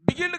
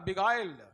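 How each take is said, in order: First: The middle vowel is a short 'i' sound. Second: The middle vowel is an 'eye' sound. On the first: The speaker calls it wrong. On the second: The speaker calls it right.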